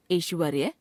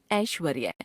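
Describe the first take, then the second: First: ऐश्वर्य opening on ए, rising; wrong pronunciation. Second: Said in the usual way. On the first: Shown as a demonstration. Teacher showing a common error, ऐश्वर्य with ए sound. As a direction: narrow ऐ to ए in ऐश्वर्य. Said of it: "अशुद्ध". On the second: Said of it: "शुद्ध".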